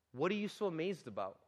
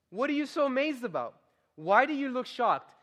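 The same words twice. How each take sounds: First: Said in the usual way. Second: Higher, indignant challenge; indignant Peter. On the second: Shown as a demonstration. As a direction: Peter scolding the amazed crowd. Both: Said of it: "Is that what he says?".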